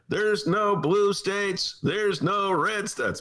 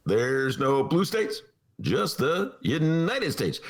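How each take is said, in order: First: Higher, very slow and stately; slow oratory with long pauses; Obama impression. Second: Slow and higher, stretched; Obama impression. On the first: Host doing Obama's convention speech, slow. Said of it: "That's my Obama imitation". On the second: Host redoing Obama slower on cue. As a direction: draw out each word like a speech. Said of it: "Talk slow, then fast".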